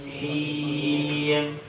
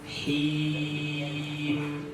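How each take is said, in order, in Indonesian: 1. Vokalnya condong ke bunyi e. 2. Vokal itu tetap murni i dari awal sampai akhir. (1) "itu condong ke huruf E kan?" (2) "Tapi luruskan huruf I sampai habis"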